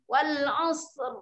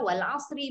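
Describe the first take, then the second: First: The word ends on a consonant without vowel. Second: The word ends with a short i vowel. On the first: "kita mesti matikan. Dia akan jadi wal asr" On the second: "Wal asri baris nyeri"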